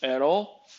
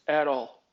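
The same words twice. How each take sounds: First: AT ALL as a question, rising at the end; questioning echo. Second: AT ALL as a level, closed statement; final statement. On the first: Employee checking the boss's ban, questioning "At all?". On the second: Boss confirming the ban, "At all." as a statement. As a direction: repeat "At all" as a settled answer, no lift. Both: Retold or imitated. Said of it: "He goes, "At all".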